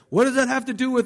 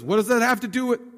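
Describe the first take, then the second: First: It is said in a gentle, mild tone. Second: It is said in a harsh, rebuking tone. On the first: The speaker is answering kindly. The speaker calls it right. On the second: The speaker is brushing the request off. The speaker calls it wrong. "He didn't say it with that tone"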